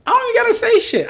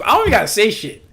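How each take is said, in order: First: Squeaky high brag. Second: Said in the usual way. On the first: Real, not acted. Repeats brag much higher.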